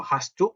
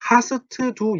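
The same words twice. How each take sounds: First: "hast du" run together as one word, "hastu"; quick, joined-up "hast du"; linked pronunciation. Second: "hast du" broken into separate syllables, with an extra vowel after s and t; overcareful, unlinked "hast du"; wrong separated reading. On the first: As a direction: link "hast du" smoothly, dropping the separate t. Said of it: "이게 보통 연음이 돼버리거든요". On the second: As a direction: say "hast du" choppily as ha-seu-teu du. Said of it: "이렇게 읽지 마시고". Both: Shown as a demonstration.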